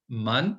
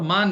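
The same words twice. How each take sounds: First: मन said short, clipped vowel; short a in man. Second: मान said with a long stretched aa; long vowel on मान, the wrong reading; long a in maan. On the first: Teacher shows the right short vowel in मन. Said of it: "और मान नहीं पढ़ना है". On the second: Teacher shows the wrong long vowel in मान. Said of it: "मान नहीं पढ़ना है". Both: Shown as a demonstration.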